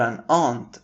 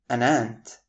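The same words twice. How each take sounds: First: "aunt" said the British way, as AHNT with a broad open vowel; "aunt" rhyming with "want", British style. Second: "aunt" said the American way, exactly like "ant"; flat American "aunt", same as the insect "ant". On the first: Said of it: "pronounced as aunt in the British accent". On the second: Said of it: "our focus is still on the American pronunciation". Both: Shown as a demonstration.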